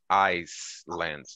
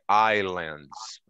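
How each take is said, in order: First: The S is pronounced in the first syllable. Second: The S is silent in the first syllable. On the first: The speaker calls it wrong. "we don't pronounce" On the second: The speaker calls it right. "A gente esconde esse S"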